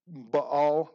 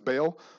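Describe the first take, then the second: First: The name gets a fancier, more elaborate pronunciation. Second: The name gets a plainer, simpler pronunciation. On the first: "some would pronounce that Baal. That sounds kind of fancy" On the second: "we're not all that fancy, so we'll just refer to him as Baal"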